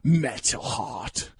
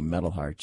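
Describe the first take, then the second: First: It is said with lots of energy. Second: It is said plainly, without extra energy.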